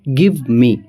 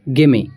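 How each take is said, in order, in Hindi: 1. Give me को दो पूरे शब्दों की तरह बोला जाता है। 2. Give me एक शब्द में मिल जाता है, gimme।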